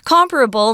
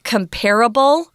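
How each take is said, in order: First: The stress is on the first syllable. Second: The stress is on the second syllable.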